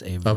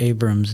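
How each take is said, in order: First: The middle consonant is a V sound. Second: The middle consonant is a B sound. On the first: The speaker calls it right. "it's a V" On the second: The speaker calls it wrong. "Abram's not really"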